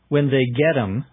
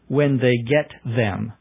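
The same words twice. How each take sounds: First: The word 'them' is shortened to 'em'. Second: The word 'them' is said in full. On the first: "he'll sometimes say M" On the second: "rather than"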